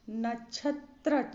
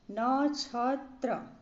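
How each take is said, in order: First: नक्षत्र with short NA and CHH; wrong CHH sound. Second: नक्षत्र very slowly, first vowel drawn out; slow correct form. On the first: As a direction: say नक्षत्र as "nachhatra". (नक्षत्र को "नछत्र" बोलें) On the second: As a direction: stretch नक्षत्र as "naa-chha-tra". (नक्षत्र धीरे, खींचकर) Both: Shown as a demonstration. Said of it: "छ नहीं होगा".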